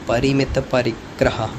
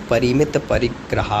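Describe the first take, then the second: No difference in how they are said.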